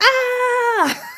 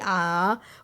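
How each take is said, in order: First: It is a loud, screamed ah. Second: It is a calm, open-mouthed ah.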